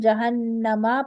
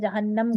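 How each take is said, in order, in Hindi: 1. शब्द छोटे 'a' स्वर पर खत्म होता है। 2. शब्द व्यंजन 'm' पर खत्म होता है। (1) "जहन्नमा पढ़ने के बजाय" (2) "जहन्नम करके रुकेंगे"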